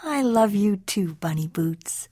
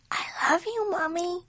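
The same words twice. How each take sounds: First: Tender mother. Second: Put-on high, soft, tender child voice; little kitten son. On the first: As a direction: answer your little one gently. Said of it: "said Mama June Bug". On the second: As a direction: say it small and sweet to mama. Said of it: "said Skippy John Jones". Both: A narrator's reading.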